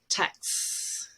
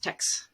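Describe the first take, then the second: First: The final S sound is held long. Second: The final S sound is short. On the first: The speaker calls it right. "we actually hold it longer as a, a linking thing" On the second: The speaker calls it wrong. "not just"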